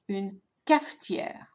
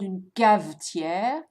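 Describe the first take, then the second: First: The middle consonant is an f sound. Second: The middle consonant is a v sound. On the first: The speaker calls it right. "So notice the f sound" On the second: The speaker calls it wrong. "it's not une cavetière"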